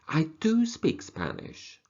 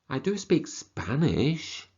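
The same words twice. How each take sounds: First: The word "do" carries the strongest stress. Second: The word "Spanish" carries the strongest stress. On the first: It contradicts a claim that the person cannot speak it. "Maybe they are correcting you" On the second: It names which language the person speaks. "Maybe somebody has said to you, do you speak any languages?"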